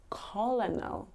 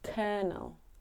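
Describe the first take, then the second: First: The word is pronounced the way it is spelled. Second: The word is pronounced differently from its spelling. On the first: The speaker calls it wrong. "It looks like it would be colonel, but it's not" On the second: The speaker calls it right. "It's colonel"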